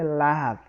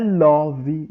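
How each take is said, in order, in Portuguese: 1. A vogal soa como A. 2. A vogal soa como O. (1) "pronuncia-se com som de A" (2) "Muitos pronunciam com som de O"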